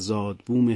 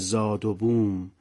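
First: The two parts join with no vowel between. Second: An 'o' sound links the two parts. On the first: The speaker calls it right. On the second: The speaker calls it wrong.

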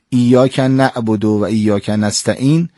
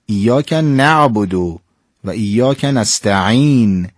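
First: The ain is said as a glottal stop. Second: The ain is said as a throaty sound. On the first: The speaker calls it wrong. "انگار نعبد رو با الف یا همزه تلفظ کردیم" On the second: The speaker calls it right. "این حد اقلی هستش که ما باید"

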